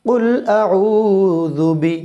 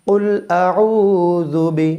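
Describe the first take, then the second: Both takes have the same delivery.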